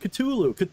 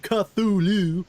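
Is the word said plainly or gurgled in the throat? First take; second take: gurgled; plain. First: The word is gurgled roughly, like clearing the throat. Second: The word is said in a plain, clear voice. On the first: The speaker calls it right. "like you're clearing your throat" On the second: The speaker calls it wrong. "it's not supposed to be Cthulhu"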